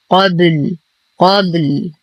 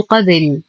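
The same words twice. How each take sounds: First: قبل with a lightly bounced, vowelless ب; small qalqalah. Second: قبل with an i vowel on the ب, qabil; wrongly vowelled ba. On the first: Teacher gives the correct stop, lightly bounced ب in قبل. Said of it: "مع قلقلة الباء قلقلة صغرى". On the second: Teacher shows learners the mistake, قبل as qabil. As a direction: break the ب of قبل into bi. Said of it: "وعدم كسرها، فلا أقول". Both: Shown as a demonstration.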